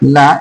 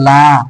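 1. স্বরধ্বনিটি ছোট করে, হ্রস্ব করে পড়া হয়। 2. স্বরধ্বনিটি টেনে দীর্ঘ করে পড়া হয়। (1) "আমরা যদি এখানে টান না দিই" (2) "লাতে আমাদেরকে টান দিতে হবে"

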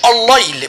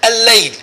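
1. صوت اللام مفخّم وغليظ. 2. صوت اللام مرقّق وخفيف. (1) "ما بنقولش الليل" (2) "بنقول إيه؟ ها؟"

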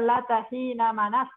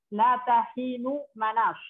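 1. Kata tengah berakhir dengan vokal a. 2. Kata tengah berakhir dengan vokal u. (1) "isimnya yang dibuang" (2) "Dibaca doma berarti khobarnya yang dibuang"

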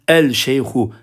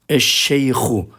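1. L, sh sesinden önce açıkça telaffuz edilir. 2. L, çift şeddeli sh sesine karışır. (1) "denmez. Yanlış olur" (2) "lamları okumuyoruz"

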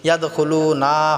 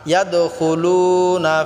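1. শেষের 'na' স্বরটি টেনে লম্বা করা হয়। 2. শেষের 'na' স্বরটি ছোট রাখা হয়।

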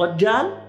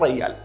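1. الحرف الأوسط صوت 'j'. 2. الحرف الأوسط صوت 'y'. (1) "احنا نقول مثلا رجال" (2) "بالكويت يقولون ريال"

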